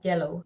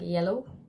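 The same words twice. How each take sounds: First: It begins with a Spanish j-like sound. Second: It begins with a plain English y sound. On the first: The speaker calls it wrong. "I used to like do as if there was a Y there" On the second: The speaker calls it right. "now I say it more like yellow, which is like how it is"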